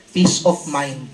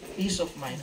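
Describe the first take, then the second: First: Peace of mind called out much louder; preacher punches the answer to the congregation. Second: Said in the usual way. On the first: Shown as a demonstration. Preacher answers his own question with a loud call. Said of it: "Ano yun?". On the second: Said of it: "Ano yun? Peace of mind".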